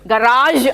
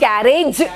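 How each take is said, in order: First: The word ends with a soft zh sound. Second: The word ends with a hard j sound. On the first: Locals do not usually say it this way. "గరాజ్ అనం" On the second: This is how locals usually say it. "Telugulo ఆ sound రాదు, అందుకే గ్యారేజ్ అంటాం"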